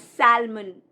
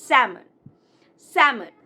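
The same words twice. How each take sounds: First: "salmon" as SAL-mun; mispronounced salmon. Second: "salmon" as SAM-un, louder; correct salmon. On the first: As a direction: sound the L in "salmon". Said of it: "people pronounce it as". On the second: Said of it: "L is silent". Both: Shown as a demonstration.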